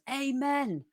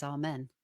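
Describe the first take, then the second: First: High, drawn-out mock roar in a recital; roared amen. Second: Said in the usual way. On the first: A narrator's reading. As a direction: call it out high, like the loudest response in the room. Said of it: "Timothy Winters roars". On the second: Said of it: "Timothy Winters says".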